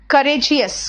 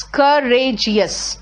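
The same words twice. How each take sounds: First: Said in the usual way. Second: करेजियस drawn out slowly syllable by syllable; करेजियस spoken slowly to show its syllables. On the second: Shown as a demonstration. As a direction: stretch करेजियस so each piece is heard. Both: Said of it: "कितने टुकड़ों में बांटना पड़ रहा है".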